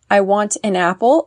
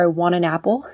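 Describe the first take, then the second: First: The phrase is said slowly and carefully. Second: The phrase is said quickly and run together.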